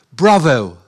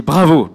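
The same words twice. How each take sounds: First: 'Bravo' said the English way, falling; a proud, clipped English 'Bravo'; English Bravo. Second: 'Bravo' louder, in a mock English accent. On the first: Retold or imitated. God's word voiced in punchline. («Bravo» à l'anglaise) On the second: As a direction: imitate an Englishman saying 'Bravo'. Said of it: "mais bien avec l'accent anglais". («Bravo» avec un accent anglais imité)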